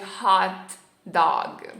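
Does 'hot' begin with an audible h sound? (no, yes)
yes. The h at the start is pronounced. This is how most Italians do not say it. "não dizem"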